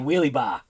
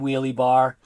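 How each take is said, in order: First: The R at the end is dropped, Boston style. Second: The R at the end is clearly pronounced. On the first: "it's so easy just to say wheelie bar" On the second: "I can pronounce my R's. I know that there is an R in wheelie bar"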